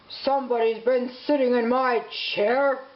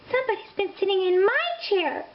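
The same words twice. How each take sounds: First: It is growled gruffly. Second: It is cried out upset.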